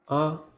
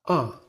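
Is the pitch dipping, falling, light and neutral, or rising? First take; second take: neutral; falling. First: The syllable is short, light and unstressed. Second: The pitch falls quickly and strongly. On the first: "It is pronounced softly" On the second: "Your voice should also fall quickly and strongly"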